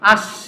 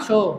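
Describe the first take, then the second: First: The word ends abruptly on the final consonant. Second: The word ends softly with a final vowel. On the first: The person addressed is disliked. "কাউকে যদি পছন্দ না করি কি বলি?" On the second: The person addressed is liked. "আর যদি পছন্দ করি আসো, মানে হসন্ত দিব না আর কি, সুন্দর করে বলবো।"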